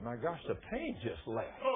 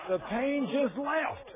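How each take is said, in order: First: Low, soft, slow disbelief; hushed amazement. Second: High, drawn-out astonishment; amazed exclamation. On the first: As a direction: say it quietly, stunned by relief. Healed man's hushed amazement, retold. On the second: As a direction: stretch it out high in wonder. Preacher repeats it in amazement. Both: Retold or imitated.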